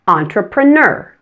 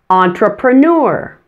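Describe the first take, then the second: First: The last syllable sounds like a short 'ner'. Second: The last syllable sounds like the word 'newer'. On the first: "Just pronouncing the last syllable, the N-E-R, simply ner" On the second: "pronounce the N-E-U-R ending, like in the word newer"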